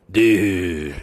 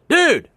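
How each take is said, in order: First: It sounds disappointed, like you blew it. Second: It sounds like calling someone over.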